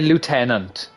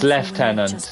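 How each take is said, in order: First: It is said with an American pronunciation. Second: It is said with a British pronunciation. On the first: "I always say Lieutenant" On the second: "the British pronunciation"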